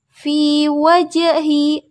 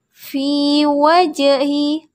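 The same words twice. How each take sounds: No difference in how they are said.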